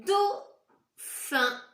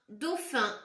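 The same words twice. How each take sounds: First: "Dauphin" loud and high, split as "dau", pause, "phin"; syllable-by-syllable reading. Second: Said in the usual way. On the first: Shown as a demonstration. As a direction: call out "Dauphin" in two separate syllables. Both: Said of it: "Essayez bien de lire les mots".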